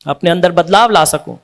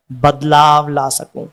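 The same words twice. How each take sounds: First: Said in the usual way. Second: बदलाव said lower and slowly, each syllable drawn out; slow emphasis. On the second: Shown as a demonstration. Humble devotee lingering slowly and low on बदलाव.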